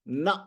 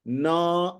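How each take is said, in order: First: The n is short, with no vowel after it. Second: The n is followed by a full a vowel. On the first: The speaker calls it right. "तो उसको न ऐसा पढ़ा जाता है" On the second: The speaker calls it wrong. "न ऐसा नहीं पढ़ा जाता"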